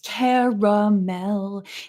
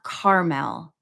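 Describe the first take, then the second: First: The second vowel is sounded, giving three syllables. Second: The second vowel is dropped, giving two syllables. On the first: The speaker calls it right. "the second A is not silent" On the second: The speaker calls it wrong. "it's not Carmel"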